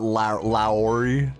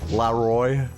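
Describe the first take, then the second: First: The name ends with an 'ee' sound. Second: The name ends with an 'oy' sound. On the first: The speaker calls it wrong. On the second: The speaker calls it right.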